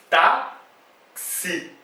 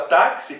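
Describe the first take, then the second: First: Táxi broken as tá, pause, xi; split into syllables. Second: Said in the usual way. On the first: Shown as a demonstration. Teacher counting syllables in táxi, split into syllables tá and xi. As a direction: say táxi in two separate mouth openings. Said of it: "quantas vezes eu tenho que abrir a minha boca". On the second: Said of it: "Quando eu falo a palavra táxi".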